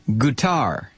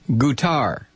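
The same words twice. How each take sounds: Both takes have the same delivery.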